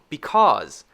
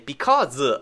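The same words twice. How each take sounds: First: The final Z sound ends with no extra syllable. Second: The final Z sound gets an extra syllable. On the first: The speaker calls it right. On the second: The speaker calls it wrong.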